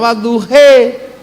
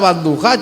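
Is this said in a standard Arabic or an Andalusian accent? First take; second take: Andalusian; standard Arabic. First: Said in an Andalusian accent, ending in e. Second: Said in standard Arabic, ending in a.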